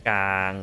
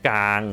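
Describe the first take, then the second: Both takes have the same delivery.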